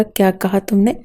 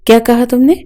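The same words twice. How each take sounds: First: Said in the usual way. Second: Higher and louder, rising in disbelief; furious outburst. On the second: A narrator's reading. Husband repeating his wife's words to her, exploding in anger. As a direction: repeat it, now blowing up. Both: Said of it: "اس کا لہجہ اتنا بلند تھا".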